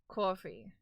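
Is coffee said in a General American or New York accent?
New York. Coffee is said with a New York accent. This is the speaker's natural way of saying it. "The way you say coffee should be a big giveaway. Yeah"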